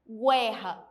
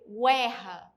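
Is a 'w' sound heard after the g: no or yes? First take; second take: yes; yes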